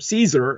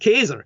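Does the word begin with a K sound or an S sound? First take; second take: S sound; K sound. First: The word begins with an S sound. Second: The word begins with a K sound. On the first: This is the anglicized form of the name. The speaker calls it wrong. "as it's Anglo-bastardized" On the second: This is the original Latin form of the name. The speaker calls it right. "the correct Latin pronunciation"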